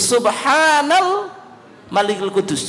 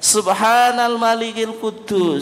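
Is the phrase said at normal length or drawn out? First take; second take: drawn out; normal. First: The phrase is drawn out with a prolonged voice. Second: The phrase is said at normal length.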